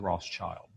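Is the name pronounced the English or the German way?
English. The name is said with an English pronunciation. The speaker calls it wrong. "but we say Rothschild"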